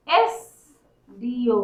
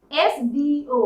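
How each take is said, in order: First: एसडीओ stretched slowly, each letter apart; slow sounding out. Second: Said in the usual way. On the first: Shown as a demonstration. Teacher to students, spelling out एसडीओ very slowly.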